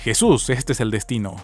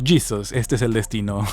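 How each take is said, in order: First: It sounds like a religious Spanish-speaking lady. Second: Jesus is said like an American gringo.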